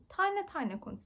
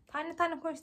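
First: Higher, mock-stern teacher telling her to slow down; imitating teacher. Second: Said in the usual way. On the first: Student retells teachers scolding her fast speech, higher mock voice. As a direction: parrot the teachers, lightly. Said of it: "Diyorlar ki". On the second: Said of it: "demiyorlar da".

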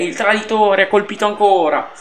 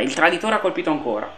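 First: Excited pundit cry. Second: Quick quiet repeat. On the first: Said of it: "oggi sto in mood Lele Adani". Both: Acted.

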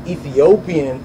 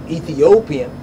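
No difference in how they are said.

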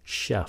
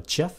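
First: CHEF with a "sh" sound; correct pronunciation. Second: CHEF with a hard "ch", as in chess; wrong pronunciation. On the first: Teacher corrects learners, CHEF with a soft "sh". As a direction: say CHEF as "sheff". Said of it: "là âm sh". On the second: Teacher warns learners, CHEF with a mistaken "ch". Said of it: "đừng có phát âm là". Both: Shown as a demonstration.

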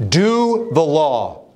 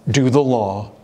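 First: "Do the law" slow, raised, the word Do hit hard; stress on DO. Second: Said in the usual way. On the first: Shown as a demonstration. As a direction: drag out "Do the law" with a strong falling Do.

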